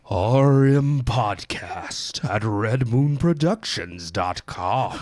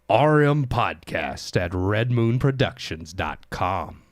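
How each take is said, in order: First: It is said in a put-on spooky voice. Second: It is said in a smooth announcer voice.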